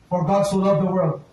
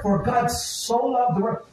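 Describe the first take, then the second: First: It is recited quickly in one smooth flow. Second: It is said slowly, pausing between each word.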